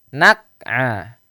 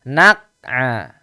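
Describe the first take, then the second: Both takes have the same delivery.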